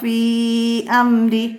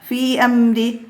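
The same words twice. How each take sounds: First: The vowel in 'fi' is drawn out long. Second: The vowel in 'fi' is kept short. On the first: The speaker calls it right. "അങ്ങനെ നീട്ടി ഓതലാണ് നല്ലത്" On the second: The speaker calls it wrong. "അങ്ങനെ ഓതുന്നതിനേക്കാളും"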